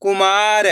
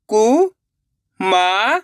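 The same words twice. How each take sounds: First: Said in the usual way. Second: कुमार drawn out in separate syllables. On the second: Shown as a demonstration. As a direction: sound out कुमार slowly, piece by piece. (कुमार को एक-एक अक्षर अलग करके) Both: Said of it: "एक अक्षर का उच्चारण करके".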